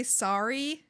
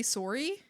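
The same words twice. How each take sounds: First: "sorry" with an open A vowel; "sorry" rhyming with starry; sorry with A sound. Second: "sorry" with a rounded O vowel; Canadian-style "sorry", starting like sore; sorry with O sound. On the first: Contrasting two pronunciations of sorry. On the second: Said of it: "I'm saying the O sound". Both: Shown as a demonstration.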